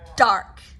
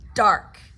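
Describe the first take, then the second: First: The D is pressed hard against the ridge. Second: The same.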